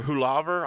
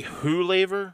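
First: Hulaver said hoo-LAH-ver; broad A pronunciation. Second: Hulaver said hoo-LAY-ver; long A pronunciation. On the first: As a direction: say Hulaver with a middle syllable like "lah". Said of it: "I don't know". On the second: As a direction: say Hulaver with a middle syllable like "lay". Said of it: "I don't know if it's". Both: Shown as a demonstration.

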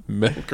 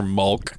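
First: "Milk" drawn out with short i; standard pronunciation. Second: "mulk" drawn out with uh vowel; variant pronunciation. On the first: Echoing friend's quiz, slow "Milk" with short i. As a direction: say "Milk" slowly, like silk. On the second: Echoing friend's quiz, slow "mulk" with uh vowel. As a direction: say "mulk" slowly, like bulk. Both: Shown as a demonstration. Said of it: "Milk or mulk?".

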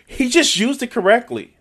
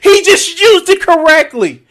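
First: Said in the usual way. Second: He just used it correctly, cried out high and loud; shouted disbelief. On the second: Real, not acted. Reacting to the clip, a high, loud mock-anguished cry.

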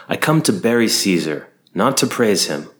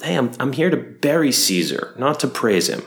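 First: Measured, formal stage reading of the line; Shakespearean oration. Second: Higher, chatty bro take on the famous line; casual modern paraphrase. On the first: Shown as a demonstration. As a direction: weigh each word like a stage actor. Recited line, then paraphrased later. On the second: Retold or imitated. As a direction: toss it off like a buddy. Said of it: "Mark Antony's like".

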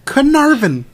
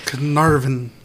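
First: Carnarvon with a high falling tune; Carnarvon, high and stressed. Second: Carnarvon said lower and softer. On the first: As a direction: say Carnarvon emphatically, pitched up. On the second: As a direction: say Carnarvon quietly, pitched down. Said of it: "No, that's not better". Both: Shown as a demonstration.

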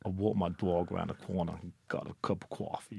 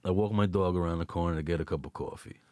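First: Low, soft attempt at Brooklyn; clumsy Brooklyn accent. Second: Low, quick Brooklyn delivery; Brooklyn accent. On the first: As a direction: have a half-hearted go at a Brooklyn accent. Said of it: "about as good as it's gonna get". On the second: Shown as a demonstration. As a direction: rattle it off in a thick Brooklyn accent. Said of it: "Can you do a Brooklyn accent?".

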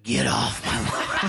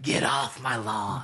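First: Put-on very slow growled old-man line; a lightly done Eastwood, dragging it out; Clint Eastwood impression. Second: Put-on slow, a bit softer growled old-man line; Clint Eastwood impression. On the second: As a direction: drag it out like Eastwood again. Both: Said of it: "I used to be able to do a Clint Eastwood".

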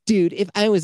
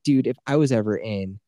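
First: High, loud catty mocking voice. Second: Said in the usual way. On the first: Shown as a demonstration. Mocking a friend's text in a catty high voice. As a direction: sneer it out like a catty gossip. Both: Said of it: "I just give him this voice".

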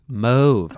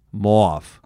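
First: "Mauve" with a long O, like "mohv". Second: "Mauve" with an "aw", like "mawv"; aw-vowel mauve. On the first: Host weighing the color's pronunciation, long-O "Mauve". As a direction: settle on "Mauve" rhyming with stove. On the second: Host testing the color's pronunciation, "aw" in "Mauve". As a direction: try "Mauve" as "mawv", falling. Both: Shown as a demonstration. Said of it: "I think mauve or mauve".

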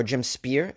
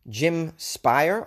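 First: "Spear" rhyming with beer; Spear pronunciation. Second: "Spire" rhyming with fire; Spire pronunciation. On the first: Podcaster offering another surname reading, "Spear" said like fear. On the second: Podcaster guessing a listener's surname, "Spire" said like fire. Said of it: "or Jim Spear". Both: Shown as a demonstration.

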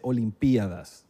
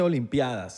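First: OLIMPIADAS stressed on PI, slow; hiato, forma esdrújula. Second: OLIMPIADAS with stress on the A; diptongo, forma llana. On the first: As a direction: break Olimpiadas into o-lim-PI-a-das. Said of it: "se dice Olimpiadas". (Olimpiadas esdrújula y lenta, acento en PI) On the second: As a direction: say Olimpiadas with "pia" run as one syllable. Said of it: "no se dice Olimpiadas". (Olimpiadas llana, acento en la A) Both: Shown as a demonstration.

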